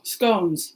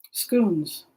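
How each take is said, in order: First: "Scones" with a hard long O, like "skohns". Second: "Scones" said as "skoons" with a long oo; oo vowel. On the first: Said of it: "We do a hard O". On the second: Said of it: "It's pronounced scones". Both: Shown as a demonstration.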